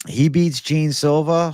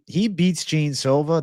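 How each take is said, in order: First: Excited. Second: Said in the usual way. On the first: Real, not acted. Hyping an imagined win.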